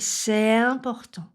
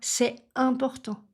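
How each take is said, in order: First: The two vowels run together without a break. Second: The sound breaks between the two vowels. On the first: The speaker calls it right. "Je fais" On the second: The speaker calls it wrong. "Je ne coupe pas le son, je ne fais pas"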